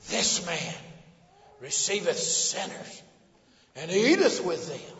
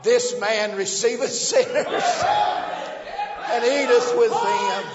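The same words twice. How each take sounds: First: It is said in a sneering, contemptuous tone. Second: It is said in a warm, joyful tone. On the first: It is an accusation meant to shame. "What they spoke in demeaning terms and derogatory terms and devilish terms" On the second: It is good news worth celebrating. "you and I say the same thing with the sweet grace of God on it"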